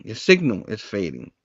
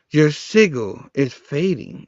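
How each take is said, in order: First: Said in the usual way. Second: "signal" said as "sigil", without the n; slow line with "signal" pronounced "siggle"; odd word as written. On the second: Shown as a demonstration. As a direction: drop the n from "signal". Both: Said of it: "actually, it says signal, which is weird".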